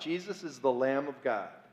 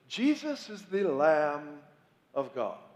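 First: It is said in an ordinary, plain voice. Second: It is said in a solemn, pious voice.

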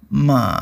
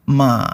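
The two takes are said the same way.

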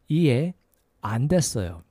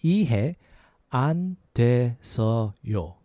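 First: It is said at a faster pace. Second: It is said at a slower pace.

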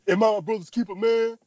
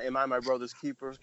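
First: It is said dramatically, like Alan Payne. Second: It is said in a dry, flat voice.

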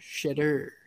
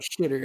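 First: The name is said slowly. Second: The name is said quickly. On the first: "You gotta say it slower" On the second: "so I speed up"

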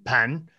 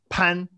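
First: The pitch rises from mid to high. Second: The pitch stays high and level. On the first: "Is it inside the entrance or in the kitchen?" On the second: "Is it outside the entrance?"

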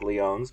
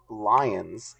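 First: The name is said with a French pronunciation. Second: The name is said with an American pronunciation. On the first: "I'm sure it's probably like Lyons" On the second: "I'm American, and so that's how you pronounce it"

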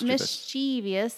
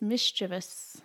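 First: An extra 'ee' sound comes before the ending. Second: No extra 'ee' sound comes before the ending. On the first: The speaker calls it wrong. "People just put like an I here" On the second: The speaker calls it right. "There's no I here"

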